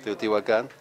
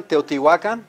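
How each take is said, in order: First: "Teotihuacan" stressed on the last syllable, KAN; contrasting "Teotihuacan" with final stress; Spanish-style stress. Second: "Teotihuacan" stressed on the next-to-last syllable, WA; louder "Teotihuacan" with penultimate stress; Nahuatl stress. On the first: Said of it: "As opposed to what?". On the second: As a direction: say "Teotihuacan" as teo-ti-WA-kan. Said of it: "the way it's supposed to be pronounced". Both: Shown as a demonstration.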